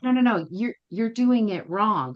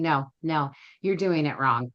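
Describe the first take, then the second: First: Higher-pitched correction. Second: Plain, unemotional verdict; matter-of-fact correction. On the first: Trainer correcting the student once more, higher-pitched. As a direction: lift the pitch and stretch the correction. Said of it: "she said it again. She was like". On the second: Trainer correcting a student in class, matter-of-fact. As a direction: correct them evenly, without any drama. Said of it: "very matter-of-factly saying". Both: Retold or imitated.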